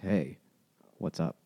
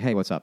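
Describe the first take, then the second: First: It is said in a suggestive, sneaky way. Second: It is said in a plain, casual way.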